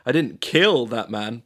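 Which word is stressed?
kill. The stress is on "kill".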